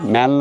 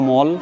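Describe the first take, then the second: First: The vowel sounds like the 'a' in cat. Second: The vowel sounds like the 'o' in hot.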